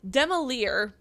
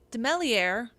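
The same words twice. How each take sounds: First: The name is pronounced in a non-French way. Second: The name is pronounced the French way. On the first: The speaker calls it right. "I think is how I'm going to go with it" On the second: The speaker calls it wrong. "it's not French like I last pronounced it"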